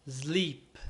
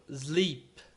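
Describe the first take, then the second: No difference in how they are said.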